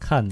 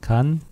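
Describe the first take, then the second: First: The word begins with an aspirated k sound. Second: The word begins with a plain k sound. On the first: "요 세 가지로 다 이 왔다 갔다 해요" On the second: "요 세 가지로 다 이 왔다 갔다 해요"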